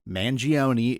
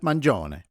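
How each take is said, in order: First: The name is said with an English pronunciation. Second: The name is said with an Italian pronunciation. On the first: This is how most people say it. "Y'all can keep saying Mangione if you want" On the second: It honors the speaker's heritage. "I use the correct Italian pronunciation of Mangione"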